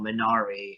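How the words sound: It is said with an American pronunciation. The speaker calls it wrong. "To all of you Americans out there uh, who have been calling the film Minari"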